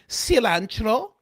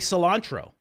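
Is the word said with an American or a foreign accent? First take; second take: foreign; American. First: The word is said with a foreign accent. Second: The word is said with an American accent. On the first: "I don't say cilantro. Although maybe that's how my grandmother said it" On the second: "I say cilantro"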